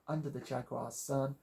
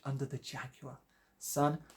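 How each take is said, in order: First: It is said in an American accent. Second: It is said in an English accent.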